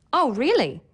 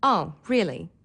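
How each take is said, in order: First: High, rise-then-fall surprised reaction. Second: Bored. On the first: Teacher showing learners how pitch conveys meaning, surprised. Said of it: "allows you to show surprise". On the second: Teacher showing learners how pitch conveys meaning, bored. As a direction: sound thoroughly uninterested. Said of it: "or boredom". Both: Shown as a demonstration.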